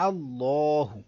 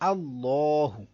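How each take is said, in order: First: The L sound is heavy and full. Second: The same.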